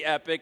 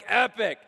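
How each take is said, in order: First: It is said weakly, with little energy. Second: It is said strongly, with lots of energy.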